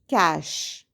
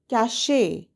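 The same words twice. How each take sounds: First: The final E is silent. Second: The final E is sounded as a syllable. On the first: The speaker calls it right. "the correct pronunciation is" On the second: The speaker calls it wrong. "The letter E at the end of the word confuses many of us and we say"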